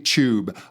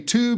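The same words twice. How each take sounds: First: It has a Scottish ch-like t sound. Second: It has a hard American t sound.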